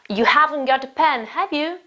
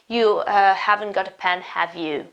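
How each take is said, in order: First: The voice rises on the tag question. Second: The voice falls on the tag question. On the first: The speaker calls it right. "My voice goes up in the tag question" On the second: The speaker calls it wrong. "It's not"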